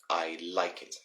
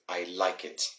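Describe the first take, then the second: The two takes are said the same way.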